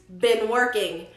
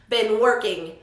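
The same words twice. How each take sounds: Both takes have the same delivery.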